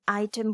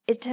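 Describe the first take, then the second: First: The first vowel is a long 'eye' sound. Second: The first vowel is a short 'ih' sound. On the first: The speaker calls it right. "आई अपना name बोल रहा है" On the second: The speaker calls it wrong. "अपनी sound नहीं बोल रहा"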